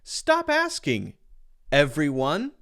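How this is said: There is a pause before everyone. A group is told to stop asking the speaker. "putting the comma in front of everyone, now I'm addressing everyone"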